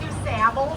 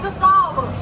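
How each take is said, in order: First: The name is said with American English sounds. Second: The name is said with French sounds. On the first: The speaker calls it wrong. "a lot of Chicagoans pronounce it Du Sable" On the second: The speaker calls it right. "but it's French"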